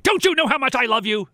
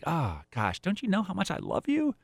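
First: It sounds irritated, not loving. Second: It sounds warm and genuinely loving.

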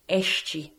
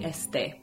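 First: It is said with a Rio pronunciation. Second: It is said with a Spanish pronunciation. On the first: "The Rio pronunciation would be este" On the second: "which in Spanish would be este"

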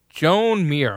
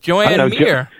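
First: The first name is said as one syllable. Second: The first name is said as two syllables. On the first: It is said this way to annoy people. The speaker calls it wrong. "I want to call him Joan just to piss people off" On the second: This is how the name is pronounced by its own people. The speaker calls it right. "But I guess that's how they pronounce it"

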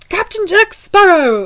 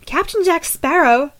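First: It is said in an exaggerated British accent. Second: It is said in the reader's normal accent.

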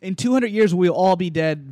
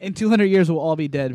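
First: It is said forcefully, with confidence. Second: It is said in a calmer, toned-down way.

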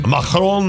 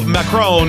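First: The name is said with a put-on French accent. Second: The name is said with a plain American accent.

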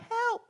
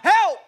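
First: It is screamed in a high-pitched voice. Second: It is shouted in a deep voice.

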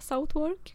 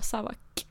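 First: The name is said fully, following its spelling. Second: The name is said short, like 'Savak'. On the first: Nobody understood it said this way. The speaker calls it wrong. "det var ingen som förstod när man sa Southwark" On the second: This is how locals say it. The speaker calls it right. "Och Savak stavas Southwark"

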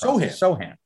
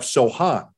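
First: The stress is on the first syllable. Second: The stress is on the second syllable. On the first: "The emphasis is on so" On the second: "but they have Sohan"

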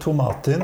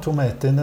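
First: The name is said the Scottish way. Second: The name is said the English way. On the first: "den skotske" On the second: "den engelske"

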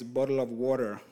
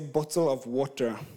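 First: It is said in an American accent. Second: It is said in the speaker's home accent.

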